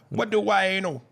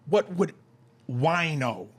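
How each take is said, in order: First: It is said in a Jamaican accent. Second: It is said in the speaker's plain accent.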